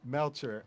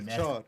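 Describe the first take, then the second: First: The name is said with an American pronunciation. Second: The name is said with a Spanish pronunciation. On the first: "He said it the American way" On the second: "It's Melchor in Spanish"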